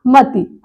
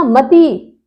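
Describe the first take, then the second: First: मती with a short final i; शुद्ध उच्चारण. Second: मती with a long held tee; गलत उच्चारण. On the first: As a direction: finish मती on a quick "ti". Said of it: "छोटी ई की मात्रा हो जाएगी". (मती को "मति" बोलें) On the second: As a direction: stretch the last vowel of मती. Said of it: "लेकिन मती नहीं है". (मती की "ती" लंबी) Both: Shown as a demonstration.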